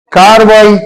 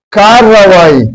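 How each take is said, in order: First: کاروائی with a single r, the way it is written; common wrong spelling-pronunciation. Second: کارروائی with a doubled, held r; correct pronunciation. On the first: Teacher to students, showing the common spelling-based pronunciation. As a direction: say کاروائی as spelled, one short r. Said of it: "یہ لکھنے میں املا میں یہ لفظ اس طرح لکھا جاتا". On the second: Teacher to students, stressing the correct doubled r. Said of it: "اصل لفظ پھر بولنے میں پروننسیشن تلفظ میں". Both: Shown as a demonstration.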